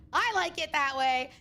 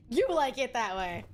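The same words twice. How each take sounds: First: I like it that way with I stretched and leaned on; stress on I. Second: You like it that way with You pushed forward and held; stress on YOU. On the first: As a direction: lean into the word I, slow and teasing. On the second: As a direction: turn it back on them, pressing You. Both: Acted. I versus you, alternating.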